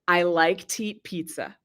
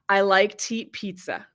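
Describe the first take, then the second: No difference in how they are said.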